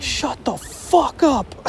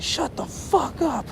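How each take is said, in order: First: Slow, high mocking impression of the driver; mock snarl. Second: High, slow, mocking driver impression; mock snarl. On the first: Driver telling the crying friend to shut up, slow mocking snarl. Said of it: "the person driving was like". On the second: Driver silencing the screaming, praying friend, mock snarl. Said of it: "he's like". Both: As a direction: sneer it out slowly.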